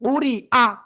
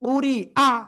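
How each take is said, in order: No difference in how they are said.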